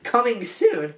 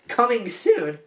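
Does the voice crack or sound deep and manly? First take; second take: cracks; cracks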